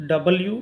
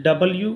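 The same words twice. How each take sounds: The two takes are said the same way.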